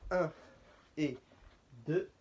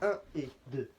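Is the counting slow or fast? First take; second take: slow; fast. First: The counts are drawn out at a slow tempo. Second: The counts are quick at a real tempo. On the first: There is time to follow along. "Je triche un peu là sur le son pour qu'on ait le temps de suivre" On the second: This is the real dance speed. "Ça c'est une vraie vitesse"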